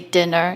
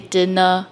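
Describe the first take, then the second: First: It has a plain standard English intonation. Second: It has a Singaporean English intonation. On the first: The speaker calls it wrong. "you don't say dinner" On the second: The speaker calls it right. "you say dinner"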